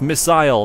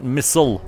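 First: It is said the non-American way. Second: It is said the American way. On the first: The speaker calls it right. "I'm not American, and missile has two eyes in it. That's why it's pronounced missile" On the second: The speaker calls it wrong. "not missile"

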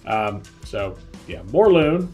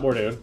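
First: The second syllable is pronounced 'lun'. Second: The second syllable is pronounced 'doon'. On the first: The speaker calls it right. "Morlun, not Mordoon" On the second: The speaker calls it wrong. "I'm totally saying his name wrong"

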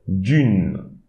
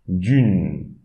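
No difference in how they are said.

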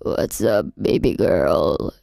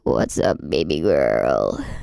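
First: The voice is pitched very high. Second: The voice is pitched very deep.

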